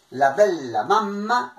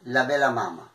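First: "la bella mamma" with long double l and m; Italian pronunciation. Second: "la bella mamma" with short single consonants; no doubling in "bella" or "mamma"; Piedmontese pronunciation. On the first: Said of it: "lo che diciamo in italiano". (pronuncia italiana con doppie) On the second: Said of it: "in piemontese". (pronuncia piemontese, consonanti semplici) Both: Shown as a demonstration.

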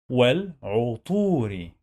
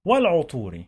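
First: Sounded out. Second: Said in the usual way. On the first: Shown as a demonstration. Teacher drilling learners on reading, sounded-out والعطور. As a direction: break والعطور into wal, 'u, long tuu, ri.

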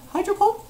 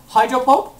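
First: Very high rising question; squeaky, hopeful query; timid question. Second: Said in the usual way. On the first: Real, not acted. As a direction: ask it again in a small high voice. Timid repeat of move.

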